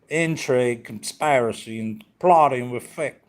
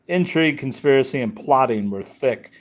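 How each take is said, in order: First: It is read in a put-on Southern accent. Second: It is read in the speaker's normal accent.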